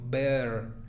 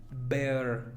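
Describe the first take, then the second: Both takes have the same delivery.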